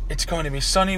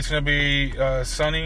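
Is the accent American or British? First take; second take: British; American. First: It is said in a put-on British accent. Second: It is said in an ordinary American accent.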